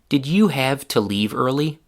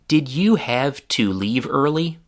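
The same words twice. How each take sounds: First: The word 'to' has a short schwa vowel. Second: The word 'to' has a clear long oo vowel.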